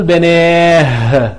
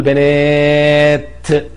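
First: بناه drawn out to a breathed H; final h instead of t. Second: بنات held long, closing on a clear T; final t sounded. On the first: Teacher showing what cannot be said, wrong H ending on بناه. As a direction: end بناه on H, with no T. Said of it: "ما أقدرش أقول بناه". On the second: Teacher correcting the wrong form, long بنات ending in T. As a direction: stretch بنات slowly and release the T. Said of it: "لا بقول بنات". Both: Shown as a demonstration.

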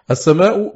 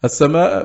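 First: السماء ending in a short "u", as-samaa'u; nominative ending. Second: السماء ending in a short "a", as-samaa'a; accusative ending. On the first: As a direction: say السماء with a final damma, as-samaa'u. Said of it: "بالرفع". (السماء بضم الهمزة الأخيرة) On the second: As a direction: say السماء with a final fatha, as-samaa'a. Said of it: "بالنصب". (السماء بفتح الهمزة الأخيرة) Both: Shown as a demonstration.

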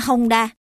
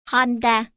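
First: Honda said the Southern way, as "hôm-đa"; Southern Vietnamese accent. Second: Honda said the Northern way, as "hon-đa"; Northern Vietnamese accent. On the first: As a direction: say "Honda" with a Southern Vietnamese "m" closing the first syllable. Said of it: "miền Nam nói". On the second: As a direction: say "Honda" with a clear Northern "n" in the middle. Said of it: "Miền Bắc nói". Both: Shown as a demonstration.

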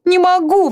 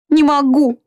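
First: Much higher, breaking-point exclamation; desperate cry, peaking. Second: Higher, pleading cry; first plea, already rising; desperate exclamation. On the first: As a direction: climb to the top of the voice. (отчаянный крик на самой высокой ноте) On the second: (отчаянный высокий возглас) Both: A narrator's reading. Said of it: "восклицала Марианна".

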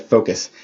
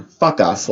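First: "focus" with a long OH in the first syllable; corrected reading "focus". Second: "Fuck us" with a short UH, as two words; misheard "Fuck us". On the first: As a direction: say "focus" clearly, FOH-kus. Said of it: "It did not sound like focus". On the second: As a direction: say "Fuck us" for the misheard word, FUK-us. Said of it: "I didn't think she was saying". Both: Retold or imitated.

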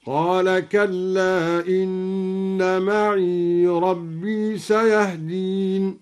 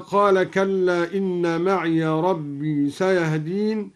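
First: Slow chant, معي as "ma'ee" joined to ربي; silent ya. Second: Said in the usual way. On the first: Shown as a demonstration. Teacher shows the joined reading, slowly chanting معي as "ma'ee". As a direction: chant معي with a long ee, no final a. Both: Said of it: "سكن الياء وصلا هكذا".

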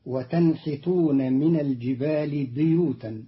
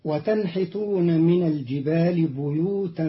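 First: بيوتا said biyutan with a kasra on ba; Qalun's reading. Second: بيوتا with a damma on ba, buyutan; standard reading. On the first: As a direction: start بيوتا with bi. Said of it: "بكسر الباء". (بِيوتا بكسر الباء) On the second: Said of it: "قرأ قالون كلمة بيوتا". (بُيوتا بضم الباء) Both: Shown as a demonstration.

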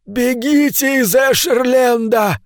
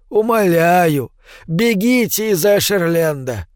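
First: Put-on high, slow desperate old man cry; desperate shout. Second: Put-on slow, pleading old man. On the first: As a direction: cry out with all he has left. Old man cries out to flee. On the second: Old man begs her to flee.

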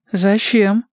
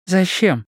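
First: Higher-pitched, uneasy question; a little jittery, pitched right up; slightly nervous. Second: High-pitched wary question; mildly suspicious, voice raised in pitch; budding suspicion. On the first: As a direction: ask it as nerves start to creep in. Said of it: "уже немного нервничая". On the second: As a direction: ask it with a first hint of suspicion. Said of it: "выказывая первые признаки подозрения". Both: A narrator's reading.

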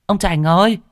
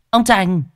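First: High, loud call rising at the end. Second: High, loud call falling at the end; a sharp summoning shout that drops. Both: Acted. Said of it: "tiếng vợ ở trên đê oang oang".

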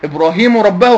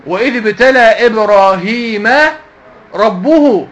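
First: "Ibrāhīmu rabbahu" for إبراهيم ربه; wrong case endings. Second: Slow "Ibrāhīmaa rabbuhu" for إبراهيم ربه; correct case endings. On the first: Teacher correcting a confused student, wrong case endings. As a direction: put -u on إبراهيم and -ahu on ربه. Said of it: "خطأ". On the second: Teacher reciting the right verse to students, correct case endings. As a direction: draw out -a on إبراهيم, then -uhu on ربه. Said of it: "مفعول به". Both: Shown as a demonstration.

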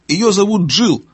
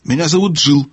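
First: Raised, higher-pitched call; owl calling out. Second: Said in the usual way. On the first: A narrator's reading. Owl repeating the girl's name to deaf gnome, calling out. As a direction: call it up high for deaf ears. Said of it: "громко крикнула сова". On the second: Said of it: "сказала Джилл".

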